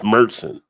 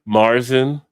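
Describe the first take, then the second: First: The first vowel sounds like 'air' in hair. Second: The first vowel sounds like 'ar' in car. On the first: The speaker calls it right. "It's not. It's Mertzen" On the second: The speaker calls it wrong. "a lot of people will say Marzen"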